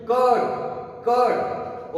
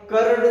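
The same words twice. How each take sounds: First: कर्ड said as kad, no r; correct pronunciation. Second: कर्ड with a sounded r; wrong pronunciation. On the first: Teacher modelling the right कर्ड, r silent. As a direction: drop the r in कर्ड. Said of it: "इसे अपन क्या पढ़ेंगे?". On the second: Teacher showing the wrong कर्ड with r. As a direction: say कर्ड pronouncing the r. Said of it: "कर्ड नहीं". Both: Shown as a demonstration.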